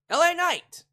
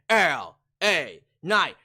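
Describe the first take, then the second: First: The name is said flatly, in a normal voice. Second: The name is said loudly, drawn out, with hype. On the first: The speaker calls it wrong. "Excuse me, let me say it right" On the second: The speaker calls it right. "Let me say it properly. With everybody saying"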